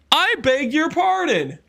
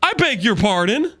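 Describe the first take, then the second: First: Higher, slow, offended "I beg your pardon"; indignant. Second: Said in the usual way. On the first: Real, not acted. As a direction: stretch it out like you can't believe what you heard.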